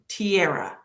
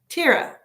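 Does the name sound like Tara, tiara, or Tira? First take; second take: tiara; Tira. First: The name sounds like the word tiara. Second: The name sounds like Tira, with a long i. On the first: "number two, tiara? Like I'm wearing a tiara" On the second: "It's pronounced Tira"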